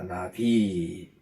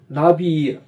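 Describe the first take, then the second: First: The stress is on the second syllable. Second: The stress is on the first syllable. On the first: It means prophet. The speaker calls it right. "이 발음을 잘 하셔야 돼요" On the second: It means butterfly. The speaker calls it wrong. "이름절에 액센트를 두면 주면 날아다니는"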